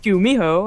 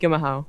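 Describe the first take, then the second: First: The name is said with every syllable clearly enunciated. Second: The name is said lazily, with the middle syllable slurred. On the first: "he'd be like" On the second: "he was getting lazy pronouncing it"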